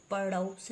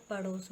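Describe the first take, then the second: First: पड़ोस with au, "padaus"; wrong pronunciation. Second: पड़ोस with pure o, "pados"; round, single o in पड़ोस; correct pronunciation. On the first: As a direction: widen the vowel of पड़ोस to au. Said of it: "नहीं होता". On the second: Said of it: "होता है". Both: Shown as a demonstration.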